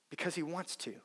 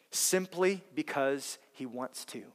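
First: Much softer repeat with a falling end; quiet repeat; soft echo. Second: Simply said slowly and softly; unhurried, stressed delivery; slow emphasis. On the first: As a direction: drop to a near hush on the repeat. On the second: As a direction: lean on simply, taking it slow. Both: Shown as a demonstration.

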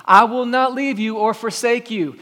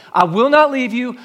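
First: Said in the usual way. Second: "not" punched, voice higher and louder; "I will not leave you" with "not" driven home; stress on not. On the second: Shown as a demonstration. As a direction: hit the word "not" hard and lift the line. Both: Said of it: "Some of you need to hear that today".

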